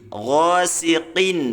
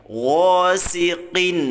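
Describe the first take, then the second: No difference in how they are said.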